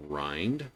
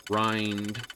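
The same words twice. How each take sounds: First: Said in the usual way. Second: "grind" stretched long, rising at the end; "grind" given a long, rising emphasis. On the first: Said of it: "emphasis on the word". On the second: Shown as a demonstration. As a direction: lean hard into "grind", drawing it out. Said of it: "emphasis on the word, grind".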